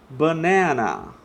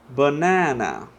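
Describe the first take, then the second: Both takes have the same delivery.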